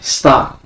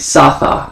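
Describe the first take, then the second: First: The two sounds are joined into one syllable. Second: The two sounds are split into two syllables. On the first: The speaker calls it right. "You say Sta" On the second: The speaker calls it wrong. "You don't say Sa-Tha"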